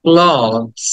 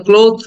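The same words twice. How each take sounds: First: ক্লথস with open "aw" and final z; corrected clothes. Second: ক্লোথ with a long o and th; mispronounced clothes. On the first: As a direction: model ক্লথস slowly as "klawz", voice falling. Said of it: "অ এবং লাস্টে জ". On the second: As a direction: say ক্লোথ wrongly, ending in th. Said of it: "ক্লোথ না". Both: Shown as a demonstration.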